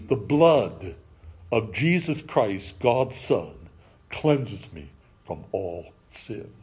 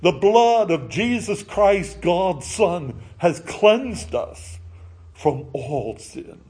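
First: Lower, soft, slow solemn reading; solemn scripture. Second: Lifted, slowing solemn declaration over music; reverent proclamation. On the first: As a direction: recite it as sacred words. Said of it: "write on each of these, these words". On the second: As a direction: proclaim the verse reverently, drawing out the end. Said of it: "the words of forgiveness written". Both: Acted.

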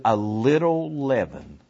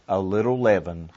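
First: "little" drawn out on a rising-falling arch; stress on LITTLE. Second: Said in the usual way. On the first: Real, not acted. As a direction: stretch "little" slowly for emphasis. Repeats verse, stretching the word.

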